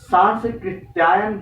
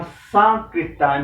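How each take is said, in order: First: सांस्कृत्यायन said with an extra s before k; सांस्कृत्यायन as sanskrit-yaayan; wrong spelling. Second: सांकृत्यायन, slow, with no s before k; सांकृत्यायन said slowly as saan-krit-yaayan; correct spelling. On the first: Teacher warns students of the wrong form सांस्कृत्यायन. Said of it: "सांस्कृत्यायन नहीं होता है". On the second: Teacher gives students the right form सांकृत्यायन, slowly. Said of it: "सांकृत्यायन होता है". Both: Shown as a demonstration.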